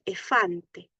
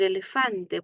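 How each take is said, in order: First: "efante" said slowly for "elefante", the middle "le" dropped; child's mispronunciation. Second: Said in the usual way. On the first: Shown as a demonstration. Therapist showing parents how a child says elefante, slow "efante". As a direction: drag out "efante" like a small child who skips a syllable. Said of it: "puede decir". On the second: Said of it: "En vez de decir".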